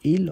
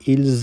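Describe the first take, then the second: First: The word ends without an s sound. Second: The word ends with an s sound. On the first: The speaker calls it right. "पढ़ेंगे इल और एल ही" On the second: The speaker calls it wrong. "इसको हम इल्स या एल्स नहीं पढ़ सकते"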